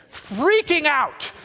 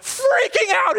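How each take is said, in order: First: Said in the usual way. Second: High, frantic emphasis; mock freak-out. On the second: Preacher shows Haman freaking out, high mock panic. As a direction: act out the panic, pitched way up.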